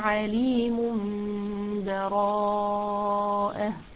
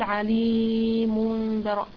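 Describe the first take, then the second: First: The long vowel is held for only two beats. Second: The long vowel is stretched well beyond two beats. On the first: The speaker calls it right. "في حال الوصل يكون مد طبيعي حركتين فقط" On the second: The speaker calls it wrong. "ينفعش أقول عليم براء، لا كده خطأ"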